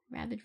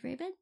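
First: "Rabid" as RAB-id, short A as in cat. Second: "rabid" as RAY-bid, long A, questioning. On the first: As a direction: try out "Rabid" with a short first vowel, RAB-id. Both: Shown as a demonstration. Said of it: "Rabid, rabid?".

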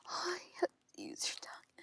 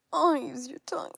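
First: Fast pleading whisper with a cry; urgent whisper. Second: Much louder moaning demand; loud moaned plea. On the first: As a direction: beg in a quick whisper. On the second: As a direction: cry it out with pleasure. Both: Acted.

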